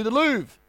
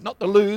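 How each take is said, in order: First: "Louvre" said in full, stressed and corrected; proper Louvre. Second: "Lou" said short with no v, the mistaken way; wrong Lou. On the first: Correcting himself for the crowd, proper "Louvre". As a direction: land the full "Louvre" as the fix. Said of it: "Not the Lou, the Louvre". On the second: To the crowd, mock mistaken "Lou". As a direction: clip it to "Lou" as a joke. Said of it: "not the Lou, the Louvre". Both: Shown as a demonstration.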